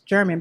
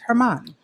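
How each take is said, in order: First: The name begins with a J sound. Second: The name begins with an H sound. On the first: This is the simplified pronunciation others use. The speaker calls it wrong. "I hear people pronounce your name as German" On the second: This is the true family pronunciation. The speaker calls it right. "but it's Herman"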